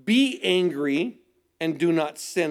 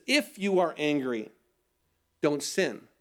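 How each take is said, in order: First: "be angry" dragged out slowly as an order; slow stressed command. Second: "If you are angry" stressed on "If", then a softer "don't sin"; soft conditional reading. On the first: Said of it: "the term isn't just". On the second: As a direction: lean on "If" to make it a condition. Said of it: "No, he says this". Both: Shown as a demonstration.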